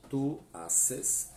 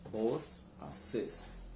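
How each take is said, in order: First: "Tu haces" with tu stressed and a rising end; Spanish "Tu haces", h silent; tu form. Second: "vos haces" stressed on vos, falling; vos form. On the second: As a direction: Rioplatense "vos haces", h silent. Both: Shown as a demonstration. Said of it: "a pronúncia também".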